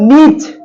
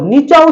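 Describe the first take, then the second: First: The word ends on a bare consonant. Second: The word ends with a vowel sound. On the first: The speaker calls it right. "এটার উচ্চারণ হলো নিচ" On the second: The speaker calls it wrong. "হসন্ত use না করেন, এইটার automatic নিচা উচ্চারণ হয়ে যেত"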